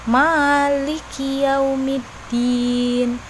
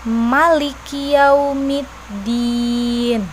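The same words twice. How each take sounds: First: The vowel after the first m is long. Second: The vowel after the first m is short. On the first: "Jadi huruf mimnya dibaca panjang" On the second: "Jadi mimnya dibaca pendek"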